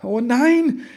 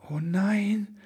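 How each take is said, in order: First: Much higher and louder anguished cry; sighing again, louder. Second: Breathy whispered sigh, higher. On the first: Elf man sees the phone and cries out in dismay. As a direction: wail it out in dismay. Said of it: "seufzte er noch einmal". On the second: Elf man sighs at the broken presents, whispered. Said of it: "seufzte Ribbelwitsch". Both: A narrator's reading.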